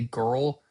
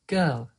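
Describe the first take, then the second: First: It has a strong American R colouring. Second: A British accent, without the R sound.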